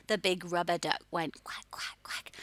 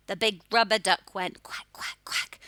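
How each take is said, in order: First: Softly whispered rhyme. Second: Said in the usual way. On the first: Shown as a demonstration. Teacher whispers the duck rhyme to the class. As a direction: whisper it like a secret. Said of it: "same rhyme, whispered take". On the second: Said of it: "phonics rhyme, loud take".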